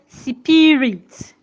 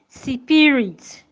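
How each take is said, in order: No difference in how they are said.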